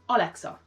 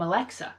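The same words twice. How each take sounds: First: It is said in a Hungarian accent. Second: It is said in a plain accent.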